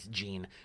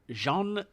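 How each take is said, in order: First: The name is said with an English sound. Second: The name is said with a French sound. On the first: The speaker calls it right. "It's a woman" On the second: The speaker calls it wrong. "or sorry"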